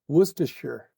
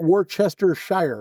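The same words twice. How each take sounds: First: The last syllable is reduced to 'sher'. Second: The last syllable is said as full 'shire'. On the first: The speaker calls it right. "it's Worcestershire" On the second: The speaker calls it wrong. "I don't think it's Shire. It's not Worcestershire"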